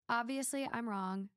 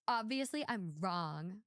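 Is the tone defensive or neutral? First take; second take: neutral; defensive. First: It is said in a plain, neutral tone. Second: It is said in a sarcastic, defensive tone. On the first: The writer sincerely admits being wrong. "let me try to read it normal" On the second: The writer doesn't really think they are wrong. "You can just picture it, can't you?"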